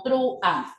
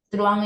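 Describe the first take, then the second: First: "truán" broken into tru and an; split in two syllables. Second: "truán" in a single beat, U gliding into A; one syllable. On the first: Teacher reading the false claim, "truán" divided into tru and an. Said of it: "debe dividirse como". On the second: Teacher stating it is a monosyllable, "truán" in one beat. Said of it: "es un monosílabo". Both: Shown as a demonstration.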